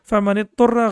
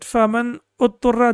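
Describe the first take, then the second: First: The second word links straight onto the first. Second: The second word starts with its own added vowel. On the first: The speaker calls it right. "the right pronunciation" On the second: The speaker calls it wrong. "if you pronounce it faman utturra, that will be the wrong pronunciation"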